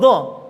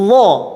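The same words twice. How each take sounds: First: The sound is released at once without holding. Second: The sound is held briefly before release. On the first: The speaker calls it wrong. "langsung lo lo tanpa ada menahan" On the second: The speaker calls it right. "Seharusnya seperti ini"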